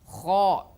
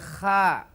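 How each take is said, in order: First: The syllable is heavy with a rounded vowel. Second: The syllable is thin with an open vowel. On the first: The speaker calls it right. "tafkhim, tebal" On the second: The speaker calls it wrong. "tidak boleh"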